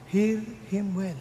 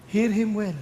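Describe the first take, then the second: First: Hear him well drawn out slowly and softer; slow, hushed Hear him well; slow, soft emphasis. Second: Said in the usual way. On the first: Shown as a demonstration. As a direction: stretch every word of Hear him well, softly.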